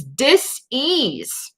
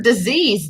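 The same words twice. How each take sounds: First: "dis-ease" said as two parts, dis then ease; split into two parts. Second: Said in the usual way. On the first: Shown as a demonstration. To live viewers, "dis-ease" split into dis and ease. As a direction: break "dis-ease" into dis and ease with a small gap, a bit higher. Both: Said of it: "look at the root of the word disease".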